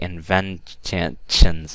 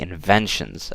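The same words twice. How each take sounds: First: The middle sound is 'ch', with a t. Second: The middle sound is 'sh', without a t. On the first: The speaker calls it wrong. "I don't say inventions" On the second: The speaker calls it right. "I say inventions"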